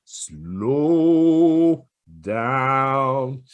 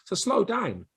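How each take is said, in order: First: So slow down stretched very slowly. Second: Said in the usual way. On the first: Shown as a demonstration. Coaching sales students to pause, So slow down said very slowly. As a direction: draw out slow down in long sounds.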